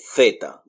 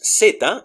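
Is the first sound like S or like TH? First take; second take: TH; S. First: It starts with a TH sound, Spain style. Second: It starts with an S sound, Latin American style.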